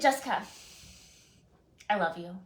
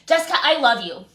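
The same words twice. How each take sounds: First: The voice sounds warm and loving. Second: The voice sounds harsh and aggressive. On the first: The speaker truly means the affection. The speaker calls it right. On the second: The speaker is annoyed and dismissive. The speaker calls it wrong.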